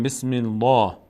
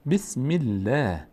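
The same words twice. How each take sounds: First: "بسم الله" with dark, full L and back "aa"; wrongly heavy L. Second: "بسم الله" slowly, thin L and fronted long "ae"; light L. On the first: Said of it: "نمیگیم". («بسم الله» با لام پر و درشت) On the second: («بسم الله» کشیده با لام باریک) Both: Shown as a demonstration.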